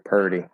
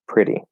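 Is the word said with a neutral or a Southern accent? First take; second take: Southern; neutral. First: It is said Southern style, with the r moved. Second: It is said in a neutral accent. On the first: Some Southerners say it this way. "they'll shift the R and they'll say purdy" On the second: This is how the speaker says it. "So I would do I in the first vowel"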